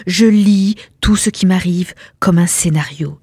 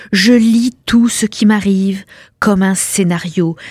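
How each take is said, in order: Both takes have the same delivery.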